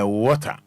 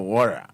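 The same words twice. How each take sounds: First: It is said in a British accent. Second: It is said in an American accent.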